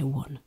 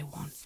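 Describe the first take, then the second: First: The word is said with a Yorkshire vowel. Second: The word is said with a standard English vowel. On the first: "we say one as well" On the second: "We don't say one"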